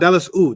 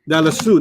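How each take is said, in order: First: The ending is split off from the word. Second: The ending is joined smoothly to the word. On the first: The speaker calls it wrong. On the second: The speaker calls it right.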